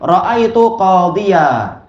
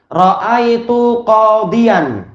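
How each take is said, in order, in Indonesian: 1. Kata terakhir berakhir dengan 'a' biasa. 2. Kata terakhir berakhir dengan 'an' sengau.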